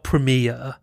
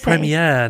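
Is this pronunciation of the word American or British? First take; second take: American; British. First: It is said with an American pronunciation. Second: It is said with a British pronunciation. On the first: The speaker calls it wrong. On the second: The speaker calls it right.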